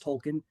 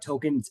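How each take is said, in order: First: The name is said with an L sound. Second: The name is said without an L sound. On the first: The speaker calls it right. "It's Tolkien" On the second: The speaker calls it wrong. "not Tolkien. We've been saying it wrong the whole time"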